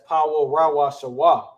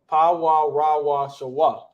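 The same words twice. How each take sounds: First: The phrase is said quickly, syllables running together. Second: The phrase is said slowly, syllables clearly separated. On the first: "See, it gets fast" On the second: "You want to say it slow"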